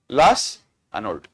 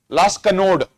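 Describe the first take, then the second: First: The second word begins with a vowel sound. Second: The second word begins with a K sound.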